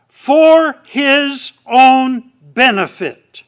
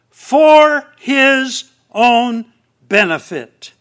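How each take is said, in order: First: "for his own benefit" drawn out slow and loud, each word weighted; slow emphasis. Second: "for his own" stretched very slowly and loud, then "benefit" dropped; slow emphasis. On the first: Preacher stressing the reflexive meaning to the congregation, slow and loud. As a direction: lean hard on "for his own benefit", slowly. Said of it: "He's coming to get us for his own benefit". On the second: Preacher repeating the point for emphasis, very slow and loud. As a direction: drag out "for his own" before landing "benefit". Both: Shown as a demonstration.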